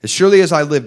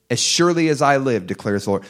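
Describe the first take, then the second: First: "surely" hit hard, loud and high; fed-up, emphatic. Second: Said in the usual way. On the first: Shown as a demonstration. Preacher re-reads God's oath, loud and done with them. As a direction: slam "As surely as I live" like a final verdict. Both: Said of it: "This is the moment where he's done with them".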